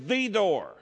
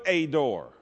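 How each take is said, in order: First: "the" said as a stressed "thee" before "door". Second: "a" said as a stressed "ay" before "door". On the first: Preacher showing the definite article in the verse, stressed "the" as "thee". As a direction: lean hard on "the", pronounced "thee". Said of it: "the definite article". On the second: Preacher showing what the Greek did not put, stressed "a" as "ay". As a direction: lean on "a" as a full "ay". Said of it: "meant a, it would have put". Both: Shown as a demonstration.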